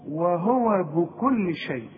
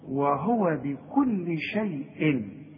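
First: The b is not followed by an i vowel. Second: The b is followed by an i vowel. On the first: The speaker calls it wrong. "في كتير قوي يقول لك" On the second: The speaker calls it right. "الباء يا راجل مكسورة"

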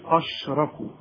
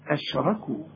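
First: The opening sound is heavy and thick. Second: The opening sound is light and thin. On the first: The speaker calls it wrong. "أرجوك ما تقولش أشركوا أش" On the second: The speaker calls it right. "هنرقق أهي دي"

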